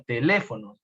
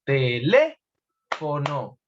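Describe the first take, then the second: First: Said in the usual way. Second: "Teléfono" drawn out very slowly, "lé" held and raised; teacher's slow breakdown of "Teléfono", heavy on the antepenultimate "lé"; stress on LÉ. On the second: Shown as a demonstration. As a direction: stretch "Teléfono" syllable by syllable, peaking on "lé", then drop for "fono". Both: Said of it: "tiene el acento en la antepenúltima sílaba".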